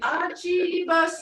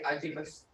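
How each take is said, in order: First: It is said warmly, with surprise and delight. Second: It is said flatly, with no emotion.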